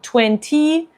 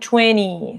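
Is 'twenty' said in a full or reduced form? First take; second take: full; reduced. First: The word is said in its full form. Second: The word is said in a reduced form. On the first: "en vez de como twenty" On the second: "en inglés de Estados Unidos también ... dicen twenty"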